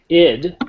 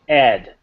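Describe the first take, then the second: First: The vowel is short i, as in kid. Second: The vowel is short e, as in bed. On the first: The speaker calls it right. "If you want to get the pronunciation down right, it's id" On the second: The speaker calls it wrong. "you never say ed"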